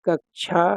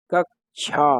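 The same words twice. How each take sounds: First: Rushed everyday कक्षा; teacher imitating the careless कक्षा; hasty pronunciation. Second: कक्षा with a clear aspirated kshha; careful textbook कक्षा with a breathy chh; teacher showing the proper कक्षा; correct pronunciation. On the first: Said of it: "इसको कक्षा बोल देते हैं जल्दी में". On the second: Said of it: "तो इसको बोलना चाहिए कक्षा". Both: Shown as a demonstration.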